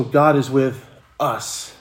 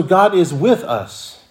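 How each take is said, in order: First: Slow, with "us" set apart at the end; stress on US. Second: "with" punched higher than the rest; stress on WITH. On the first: Preacher stressing the last word of the phrase, "us". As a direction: hold back, then land on "us". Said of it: "if I can emphasize that last word". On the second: Preacher giving another reading of the phrase, stress on "with". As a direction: hit the word "with", then fall on "us". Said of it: "emphasis on with". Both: Shown as a demonstration.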